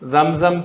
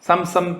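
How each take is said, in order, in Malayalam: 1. വാക്ക് മൂളുന്ന z ശബ്ദത്തിലാണ് തുടങ്ങുന്നത്. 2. വാക്ക് സാധാരണ s ശബ്ദത്തിലാണ് തുടങ്ങുന്നത്. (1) "സായാണ്. സംസം തെളിനീർ എന്നാണ് സാധാരണ ഉച്ചരിക്കേണ്ടത്" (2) "നമുക്ക് ആ സം സംസം സംസം തെളിനീരെന്നാ പറയുക"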